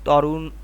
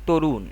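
First: The first vowel is an open 'aw' sound. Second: The first vowel is a close 'o' sound. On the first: The speaker calls it wrong. "আমরা যদি বলতাম তাহলে তরুণ বলতে পারতাম" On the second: The speaker calls it right. "এখানে উচ্চারণটি হয়ে যাচ্ছে তরুণ"

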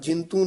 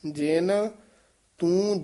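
First: The two words are merged into one. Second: The two words are kept separate. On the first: The speaker calls it wrong. "ਜਿੰਤੂ ਨਹੀਂ ਕਹਿਣਾ ਹੈ" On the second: The speaker calls it right. "ਇਹ ਜੇਨ ਇੱਥੇ ਯਮਕ ਹੈ"

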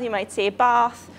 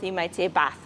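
First: It is said in a southern English accent. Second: It is said in a northern English accent.

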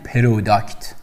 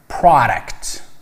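First: The first vowel is a rounded 'o' sound. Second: The first vowel is an open 'ah' sound. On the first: The speaker calls it wrong. "برای همین نگید پروداکت. خب این اشتباه است" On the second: The speaker calls it right. "تلفظ صحیح این واژه آ هستش"

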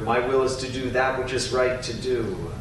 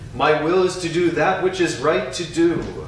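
First: It is said more softly and quietly. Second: It is said loudly in a strong voice. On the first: "A little softer" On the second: "first out loud in a strong voice"

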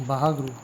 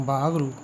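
Both takes have the same delivery.

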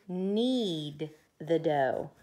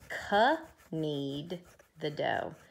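First: The word 'knead' starts with an N sound and no K. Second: The word 'knead' starts with a sounded K before the N. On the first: The speaker calls it right. "they have to knead the dough" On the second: The speaker calls it wrong. "but they don't k-knead the dough"

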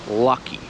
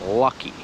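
The two takes are said the same way.

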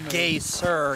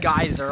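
First: It is said the local Icelandic way. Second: It is said the usual English way.

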